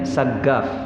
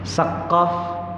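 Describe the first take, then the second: First: The middle consonant is a hard g sound. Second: The middle consonant is a deep q sound. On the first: "dengan huruf G" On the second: "Saqqaf jadi sebutannya"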